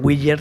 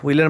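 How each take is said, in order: First: The name is read as spelled. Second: The name is not read as spelled. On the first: This is how people in Ecuador said it. "tal cual se escribía" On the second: This is how the name is meant to sound. "en realidad así como se pronuncia"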